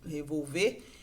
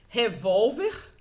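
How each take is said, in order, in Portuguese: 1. A tônica está na última sílaba. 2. A tônica está na penúltima sílaba. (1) "É a última sílaba que é tônica" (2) "É uma paroxítona"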